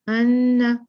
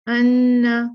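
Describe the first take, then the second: No difference in how they are said.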